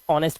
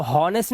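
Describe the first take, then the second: First: ऑनेस्ट with silent h; correct pronunciation. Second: हॉनेस्ट with the h sounded; wrong pronunciation. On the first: Teacher correcting the reading, ऑनेस्ट without h. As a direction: start ऑनेस्ट straight on the vowel. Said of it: "ऑनेस्ट पढ़ते हैं". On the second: Teacher showing what not to read, हॉनेस्ट with h. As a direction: start हॉनेस्ट on an audible h. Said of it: "इसको हॉनेस्ट नहीं पढ़ते". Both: Shown as a demonstration.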